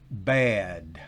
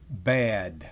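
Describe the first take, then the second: The two takes are said the same way.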